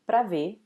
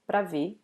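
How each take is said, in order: First: The first vowel is dropped, leaving one syllable before ver. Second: The same.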